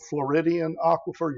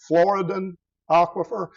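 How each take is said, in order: First: The first word ends with an extra '-dee-an' sound. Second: The first word ends with a plain '-dan' sound. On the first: The speaker calls it wrong. "Some people mispronounce it as the Floridian aquifer" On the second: The speaker calls it right. "The most important one is called the Floridan aquifer"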